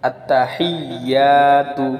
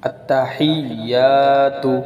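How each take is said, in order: The two takes are said the same way.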